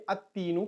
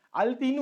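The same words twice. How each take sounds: First: Put-on at-teenu for "التینو", lam skipped, t doubled; assimilated lam. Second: Put-on "التینو" as al-teenu, the l still heard; lam pronounced. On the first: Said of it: "direct لام کو نہیں پڑھ کے". ("التینو" لام پڑھے بغیر، ات تینو) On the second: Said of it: "لیکن ہم کو حروف شمسی سے". ("التینو" میں لام کی آواز کے ساتھ) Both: Shown as a demonstration.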